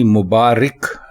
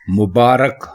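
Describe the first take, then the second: First: The vowel after r is an i sound. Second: The vowel after r is an a sound. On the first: The speaker calls it wrong. "रे के नीचे जेर लगाकर बोलेंगे तो आप गलत बोलेंगे ... मुबारक गलत है" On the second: The speaker calls it right. "रे के ऊपर जबर लगाकर बोलना भी चाहिए ... मुबारक दुरुस्त है"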